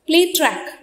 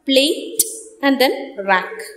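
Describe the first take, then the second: First: The break falls before the t sound. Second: The break falls after the t sound. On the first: It means a track where you play. "So it is play then track" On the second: It means a rack for keeping plates. "The other one is plate and then rack"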